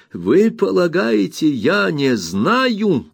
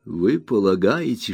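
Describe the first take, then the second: First: "Вы полагаете" flung out much higher and slower; indignant. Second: Said in the usual way. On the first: Acted. Aunt Betsy repeats "Вы полагаете" at the brother, indignantly higher. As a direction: she hurls "Вы полагаете" up high, outraged. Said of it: "с негодованием тряся головой". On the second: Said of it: "Вы полагаете (repeated, raised)".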